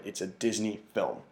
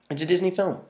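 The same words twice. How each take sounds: First: Said in the usual way. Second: "Disney" punched higher and louder; emphatic repeat. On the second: Shown as a demonstration. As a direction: hit "Disney" hard the second time.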